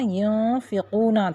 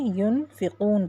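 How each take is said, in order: First: The word ends with a short vowel after n. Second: The word ends on n with no vowel. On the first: The word is read without stopping. "यहाँ युनफ़िक़ूना था" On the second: The reader stops at the end of the verse. "हमने युनफ़िक़ून पढ़ा"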